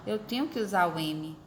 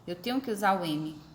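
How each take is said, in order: Both takes have the same delivery.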